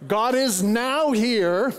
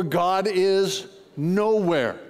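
First: "now here" as two separate words, slow, rising; split NOW HERE. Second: "nowhere" run together as one word, falling; slow lead-in, then "nowhere" joined and dropping. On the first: Preacher showing one way to read it, "now here" split in two. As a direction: slowly set "now" apart from "here", lift the end. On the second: Preacher showing the other reading, "nowhere" as one falling word. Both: Shown as a demonstration. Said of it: "you can read it two ways".

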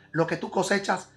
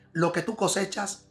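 The two takes are said the same way.

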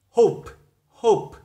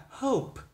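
First: Hope in an American accent, louder, with a rounded o. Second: Soft, slow British hope; British accent. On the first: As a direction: model the American hope firmly. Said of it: "Giọng Mỹ người ta đọc là". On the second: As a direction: quietly model the British hope. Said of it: "Giọng Anh là". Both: Shown as a demonstration.

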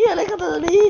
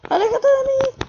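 First: High, loud cry to get away; panicked shout. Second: Much higher, louder shriek; shrieking in panic. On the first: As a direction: yell at the creature. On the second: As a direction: scream it in full panic. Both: Real, not acted. Brain monster approaching.

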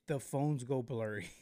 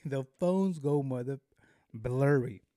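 First: Said in the usual way. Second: Louder, punched retake; emphatic. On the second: Shown as a demonstration. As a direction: hit it harder with mock outrage.

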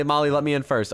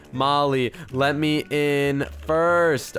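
First: Said in the usual way. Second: Very slow, drawn-out words, lower; word by word as if typing it; dictating while typing. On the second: Real, not acted. Types the message, then repeats it.

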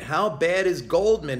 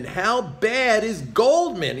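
First: Said in the usual way. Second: "How bad is Goldman?" said higher and very slow, every word leaned on; slow, higher "How bad is Goldman?" in scornful disbelief; slow emphatic repeat. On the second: Shown as a demonstration.

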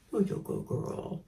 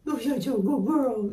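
First: Softly whispered to the bird; whispered praise. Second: Voiced, higher praise to the bird; high sweet praise. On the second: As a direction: lift it up in a sweet coo. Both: Real, not acted.

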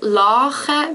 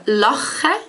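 First: Lache with a long drawn-out a; lache, a held long; long vowel lache. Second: Lache with a short a, slowly spoken; lache, quick clipped a; short vowel lache. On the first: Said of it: "show that it is a long one". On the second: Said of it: "lache means to laugh". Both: Shown as a demonstration.

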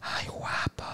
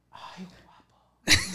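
First: Breathy whisper into the ear; flirty whisper. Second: Drawn-out flirty coo; slow flirty coo. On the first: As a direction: whisper it close to his neck. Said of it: "pero me hace así". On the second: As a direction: stretch it out like a tease. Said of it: "Así me hace". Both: Retold or imitated.

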